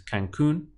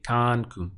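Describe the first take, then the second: First: The stress is on the last syllable. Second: The stress is on the first syllable. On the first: The speaker calls it right. "the pronunciation is Cancun" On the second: The speaker calls it wrong. "They would stress the syllable before last as always"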